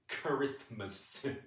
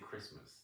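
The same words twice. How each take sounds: First: The word is pronounced in an odd, exaggerated way. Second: The word is pronounced in an ordinary everyday way. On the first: This is how choir singers are told to say it. "they say Christmas. Like it's it's crazy" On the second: This is how people normally say it. "they don't say Christmas"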